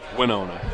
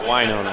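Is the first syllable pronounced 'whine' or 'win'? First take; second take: win; whine. First: The first syllable sounds like 'win'. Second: The first syllable sounds like 'whine'. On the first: The speaker calls it right. "they win" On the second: The speaker calls it wrong. "they don't whine"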